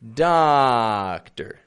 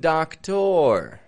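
First: The first syllable is strong, the second weak. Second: Both syllables are said strong and full. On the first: The speaker calls it right. "Getting it strong and then flat on the ending" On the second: The speaker calls it wrong. "I'm not saying doctor"

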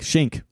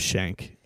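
First: The name does not sound like shank. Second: The name sounds like the word shank. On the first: The speaker calls it right. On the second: The speaker calls it wrong.

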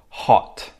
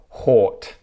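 First: The vowel is a short 'oh' sound. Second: The vowel is a longer 'or' sound. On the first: The speaker calls it right. "five words with the oh sound" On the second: The speaker calls it wrong. "substitute in the or sound"

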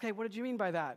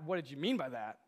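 First: It is asked in a gentle, curious tone. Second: It is asked in a sharp, offended tone.

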